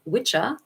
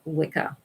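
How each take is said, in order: First: The middle consonant is a ch sound. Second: The middle consonant is a k sound. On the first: This is the Old English form. "which is how it's, how it's pronounced in Old English" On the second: This is the modern form. "that's what we know today to be Wicca"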